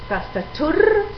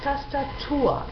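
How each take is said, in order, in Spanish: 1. Termina en un sonido r audible. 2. Termina en vocal abierta. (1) "No decimos TASTATUR" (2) "Abrimos la última vocal"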